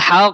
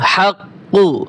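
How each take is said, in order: First: The word ends on a bare consonant. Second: The word ends with a short vowel.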